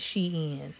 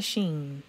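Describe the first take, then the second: First: Shein in two syllables, "SHEE-in", pitched lower; correct pronunciation. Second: Shein squashed into one syllable, "sheen"; wrong pronunciation. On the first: Closing the correction for viewers, Shein pronounced "SHEE-in". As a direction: break Shein into "she" and "in", softer and lower. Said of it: "It's not Shein. It's Shein". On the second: Showing viewers the mistake, Shein pronounced "sheen". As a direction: say Shein to rhyme with "green". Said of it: "It's not Shein". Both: Shown as a demonstration.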